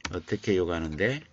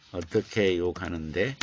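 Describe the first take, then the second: First: 욕하는데 lifted, said a bit faster; quick question, stress 욕하는데. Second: 어떻게 lifted with a rise; asking how, stress 어떻게. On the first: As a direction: lean on 욕하는데, not on 어떻게. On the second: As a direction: lean on 어떻게 as the key word. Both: Shown as a demonstration.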